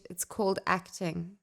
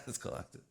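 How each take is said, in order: First: 1 dry retort. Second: 1 whispered echo. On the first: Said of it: "I wish you turned to them and go". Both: Pretend.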